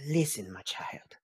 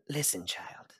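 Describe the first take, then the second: First: Low, whispered, after a sigh; mother's weary address. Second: Very soft, near whisper; mother's weary address. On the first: Mom answering her child on the phone, low whisper. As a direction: sigh it out as a hushed reproach. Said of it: "she goes". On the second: Mom starting to reproach her child, hushed and weary. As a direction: breathe it out after the sigh. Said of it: "She goes". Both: Acted.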